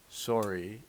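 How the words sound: The first vowel sounds like 'oh'.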